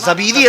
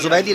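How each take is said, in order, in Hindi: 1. नाम 'za' और 'bee' के साथ कहा जाता है। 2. नाम 'zu' और 'bai' के साथ कहा जाता है। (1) "अल्लामा ज़बीदी रहमतुल्लाह अलैह" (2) "जुबैदी नहीं"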